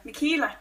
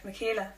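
First: "Michaela" as mi-KEE-la; "Michaela", middle rhyming with "see"; pronounced with KEE. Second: "Michaela" as mi-KAY-la; "Michaela", quietly, middle rhyming with "day"; pronounced with KAY. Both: Shown as a demonstration. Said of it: "hope we pronounced that right".

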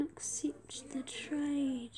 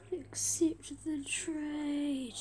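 First: Slow whisper, trade drawn out; whispered plea. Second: Said in the usual way. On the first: Shown as a demonstration. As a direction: breathe it, begging and slow.

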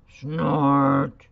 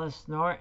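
First: A loud rhinoceros snort; rhino snort. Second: Said in the usual way. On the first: Acted. Teacher reading to kids, snorting loud like a rhinoceros. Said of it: "says the rhinoceros". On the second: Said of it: "Snort," says the rhinoceros".

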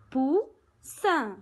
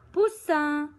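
First: "Poussin" split in two, pous, then sin after a pause; syllable by syllable. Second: Said in the usual way. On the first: Shown as a demonstration. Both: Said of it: "Deux syllabes".

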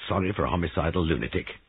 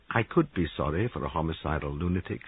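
First: Quick, disbelieving echo of "Sorry"; incredulous echo. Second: Unhurried, with weight on "could"; considered insistence. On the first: Giles questioning Molly's pity, incredulous. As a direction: throw "homicidal lunatic" back at her quickly. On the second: Molly defending her pity to Giles, considered. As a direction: lean on "could" and keep it measured. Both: Acted.

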